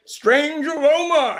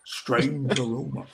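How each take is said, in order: First: High, slow, hammed-up drawl; a six-year-old milking the cowboy tagline; proud little kid doing the commercial voice. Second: Slow, lowered Western drawl; deadpan commercial cowboy, drawn out; lazy Western hero delivering the tagline. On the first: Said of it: "And I go". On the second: Retold or imitated. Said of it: "it was a Western guy".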